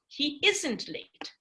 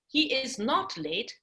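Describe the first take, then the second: First: The words 'is not' are contracted together. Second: The words 'is not' are said in full. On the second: "the negative is"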